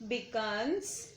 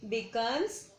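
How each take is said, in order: Both takes have the same delivery.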